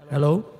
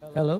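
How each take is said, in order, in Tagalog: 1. May dagdag na reverb ang boses. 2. Walang dagdag na reverb ang boses. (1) "kung lalagyan natin siya ng reverb" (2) "ito yung sound na to ay nanggagaling na mismo dito sa ating pinaka-microphone"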